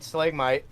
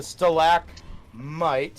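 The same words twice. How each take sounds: First: Said in the usual way. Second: "stalagmite" drawn out, with "mite" set apart; fumbled correction. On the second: Real, not acted. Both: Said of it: "never gonna get that right".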